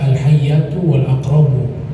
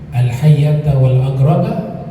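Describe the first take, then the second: First: The nouns end with a 'u' vowel. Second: The nouns end with an 'a' vowel. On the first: The nouns form a delayed subject. "Bisa juga dibaca al-hayyatu wal aqrabu" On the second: "Bisa dibaca al-hayyata juga bisa"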